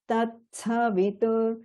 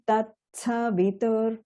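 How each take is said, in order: First: The middle consonant sounds like ts. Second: The middle consonant sounds like ts.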